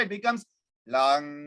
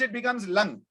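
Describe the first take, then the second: First: The vowel is an open 'a' sound. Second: The vowel is a reduced 'u' sound. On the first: "as it becomes faster, it becomes lang" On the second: "When it is very fast, it becomes lung"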